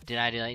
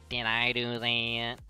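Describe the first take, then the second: First: It is said in an ordinary, plain voice. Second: It is said in an exaggerated put-on character voice. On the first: The speaker calls it wrong. "no, no, no, hold on. Let's do it again" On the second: The speaker calls it right. "you just gotta go all in on the Urkel voice"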